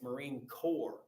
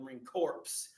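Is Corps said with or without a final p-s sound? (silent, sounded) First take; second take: silent; sounded. First: Corps ends in a plain r sound. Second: Corps ends with a p-s sound, like corpse. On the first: The speaker calls it right. "The P and the S are silent" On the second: The speaker calls it wrong. "don't say you're going to the Marine Corps"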